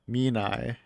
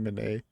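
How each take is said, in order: First: The name is said with a Japanese-style pronunciation. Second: The name is said with an English-style pronunciation. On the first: The speaker calls it right. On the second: The speaker calls it wrong.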